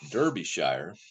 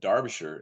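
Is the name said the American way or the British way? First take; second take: American; British. First: It is read the American way, as spelled. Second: It is said the British way. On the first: This is how the speaker first assumed it was said. The speaker calls it wrong. "what I thought was Derbyshire" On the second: This is how the name is actually said. The speaker calls it right. "Derbyshire is the Br- Brit"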